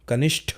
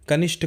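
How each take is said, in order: First: The final consonant is aspirated, with a breath. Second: The final consonant is unaspirated, a plain t. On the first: The speaker calls it right. "कनिष्ठ होता है" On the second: The speaker calls it wrong. "कनिष्ठ कुछ नहीं होता"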